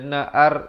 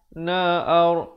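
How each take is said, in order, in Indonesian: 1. Bunyi r itu tipis. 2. Bunyi r itu tebal. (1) "Dia tak dibaca na'ar. Na'ar itu tak betul" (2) "Ra di sini dibaca tebal"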